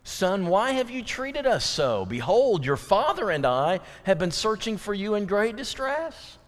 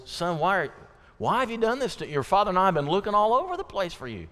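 First: Mary's question. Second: Quick, pitched-up, anxious scolding; distressed mother. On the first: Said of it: "what is the tone of that question?". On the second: Mary scolding her found son, quick and anxious. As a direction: rush it out with adrenaline still running. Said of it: "it comes out in the tone of voice". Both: Retold or imitated.

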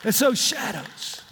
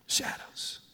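First: Said in the usual way. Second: Shadows whispered, breath only. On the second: Shown as a demonstration. Preacher hushing the congregation, whispered shadows. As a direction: drop shadows to a hushed whisper. Repeats the word, then whispers it.

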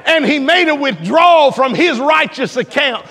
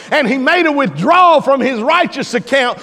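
Both takes have the same delivery.

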